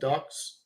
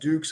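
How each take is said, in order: First: The vowel is a short 'uh' sound. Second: The vowel is a long 'oo' sound. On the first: This is how the speaker says it. "I pronounce it Dux" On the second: This is how some other people say it. "Some people pronounce it Dukes"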